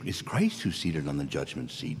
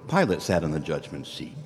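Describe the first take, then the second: First: Christ given the weight, softer, rising close; in the great creation, Christ judges, stress on Christ. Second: Pilate leaned on hard, falling after; the governor in judgment, stress on Pilate. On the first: Eschatologically Christ judges, Christ stressed. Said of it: "But eschatologically". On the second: Historically Pilate judged, Pilate stressed. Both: Shown as a demonstration.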